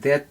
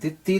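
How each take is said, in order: First: The final vowel is dropped, giving one syllable. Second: The word is said with a short final vowel. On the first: The speaker calls it wrong. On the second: The speaker calls it right.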